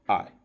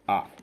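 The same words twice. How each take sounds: First: The word is short and unstressed. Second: The word is short and unstressed.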